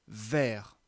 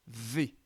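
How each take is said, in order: First: The vowel is open, like in mer. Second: The vowel is closed, like in rocher. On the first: The speaker calls it wrong. "on aurait envie de dire vers, ou comme dans M E R" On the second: The speaker calls it right. "on va bien dire V"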